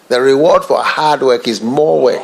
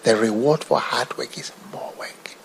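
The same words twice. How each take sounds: First: It is spoken in a normal full voice. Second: It is spoken in a soft whisper.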